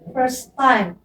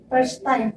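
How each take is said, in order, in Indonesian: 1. Diucapkan dengan aksen Inggris standar. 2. Diucapkan dengan aksen Sunda. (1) "padahal harusnya first time" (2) "orang Sunda itu banyaknya first time"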